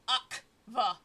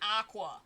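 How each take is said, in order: First: The middle consonants sound like k followed by v. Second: The middle consonants sound like k followed by w. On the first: The speaker calls it right. "Akva with a V" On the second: The speaker calls it wrong. "His first name is not Aqua"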